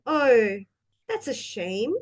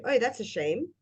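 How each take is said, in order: First: Concerned, engaged reaction; interested. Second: Quick, indifferent sympathy; perfunctory reaction; uninterested. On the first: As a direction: show you care about their bad news. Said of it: "the way we say the words". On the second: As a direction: toss it off as if you don't care. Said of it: "if we are interested or not". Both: Shown as a demonstration.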